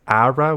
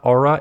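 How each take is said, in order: First: The first vowel sounds like 'ah'. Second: The first vowel sounds like 'or'. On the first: The speaker calls it right. "it's Ara Wheel?" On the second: The speaker calls it wrong. "So it's not Aura"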